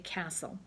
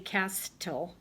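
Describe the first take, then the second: First: The T sound is left out entirely. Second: The T sound is pronounced in the middle. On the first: The speaker calls it right. "the letter T is silent" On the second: The speaker calls it wrong. "you don't say castle"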